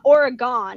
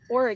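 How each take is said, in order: First: The last syllable sounds like 'gone'. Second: The last syllable is reduced, like 'gun'. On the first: This is how outsiders say it. The speaker calls it wrong. "there's not an e at the end of Oregon. It's not Oregon" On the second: This is how locals say it. The speaker calls it right. "it's Oregon"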